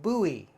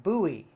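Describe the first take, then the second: Both takes have the same delivery.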